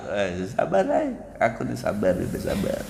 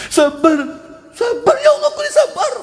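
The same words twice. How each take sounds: First: Quiet patience. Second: High, whiny cry of sabar, sabar; mock whining. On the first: Acted. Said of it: "sampai kapanpun tetap aku sabar". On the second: A grieving believer insists on sabar, hammed-up high whine. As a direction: whine sabar like a grumbler pretending to be patient.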